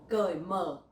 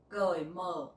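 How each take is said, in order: The two takes are said the same way.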